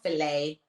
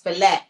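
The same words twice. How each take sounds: First: The word ends without a T sound. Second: The word ends with a clear T sound. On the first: The speaker calls it right. "it's not fillet" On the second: The speaker calls it wrong. "It has a T at the end"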